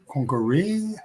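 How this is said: The pitch rises at the end.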